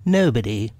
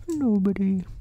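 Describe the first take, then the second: First: Lightly voiced rabbit, curt. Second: High bear voice quoting a word; Pooh. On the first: Rabbit pretending the hole is empty, lightly voiced curt reply. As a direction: answer curtly with a hint of character. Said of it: "You needn't shout so loud". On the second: A narrator's reading. Bear mulling over the answer he heard, high musing voice. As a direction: echo it high as a pondering bear. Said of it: "he thought to himself".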